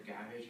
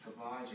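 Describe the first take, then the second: First: "gavage" said the other possible way; alternative pronunciation. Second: "gavage" said one of two possible ways; first pronunciation variant. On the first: Student presenter unsure how to say the term, alternative pronunciation. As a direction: offer another way of saying "gavage". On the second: Student presenter unsure how to say the term, first pronunciation variant. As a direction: offer one way of saying "gavage". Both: Shown as a demonstration. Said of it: "however you wanna say it".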